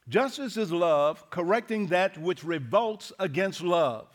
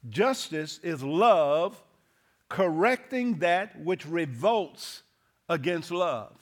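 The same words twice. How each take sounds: First: It is said at a normal pace. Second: It is said more slowly.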